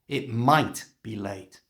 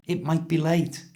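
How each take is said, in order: First: The word 'might' is stressed. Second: The word 'might' is said lightly.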